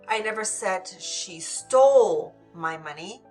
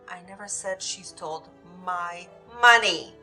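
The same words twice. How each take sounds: First: The word stole carries the main stress. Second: The word money carries the main stress. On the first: She may have borrowed it instead. "Maybe she borrowed it, but didn't steal it" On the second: She took something other than money. "She might have taken something else, but not the money"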